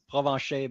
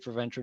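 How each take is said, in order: First: The name is said with French pronunciation. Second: The name is said with English pronunciation. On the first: This is the original pronunciation of the name. "real pronunciation is" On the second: This is an acceptable easier pronunciation. "but you can say"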